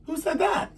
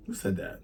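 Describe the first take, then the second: First: Very high, squeaky mock query; high-pitched questioning. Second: Said in the usual way. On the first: Storyteller checking who said the line, playful high-pitched question. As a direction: repeat it way up high.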